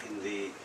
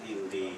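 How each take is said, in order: Both takes have the same delivery.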